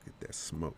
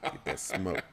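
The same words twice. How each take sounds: First: It is said in a put-on deep voice. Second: It is said in the normal speaking voice.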